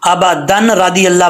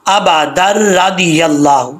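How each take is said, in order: First: अबादन रादी अल्लाह with a clear n before the r; mistaken reading. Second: अबादर रादी अल्लाह, n merged into a doubled rolled र; joined reading. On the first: Teacher shows the mistake, n left unmerged. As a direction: read अबादन रादी अल्लाह unjoined, sounding the n. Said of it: "पढ़ेंगे तो mistake हो जाएगी". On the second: Teacher models connecting दाल to रा, slow recitation. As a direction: slowly link अबादर रादी अल्लाह through a held र. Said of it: "दाल को रा से connect करेंगे". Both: Shown as a demonstration.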